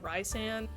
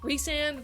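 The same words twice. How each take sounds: First: The first syllable sounds like 'rice'. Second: The first syllable sounds like 'reese'. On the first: "I personally pronounce it Rhysand. He's a grain of rice" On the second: "Is he a Reese's Pieces?"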